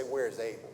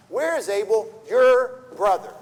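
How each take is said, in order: First: Said in the usual way. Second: "your brother?" slowed and punched louder; pointed question stressing "your brother?". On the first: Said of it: "Why not just say". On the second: Shown as a demonstration. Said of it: "Why does he emphasize "your brother"?".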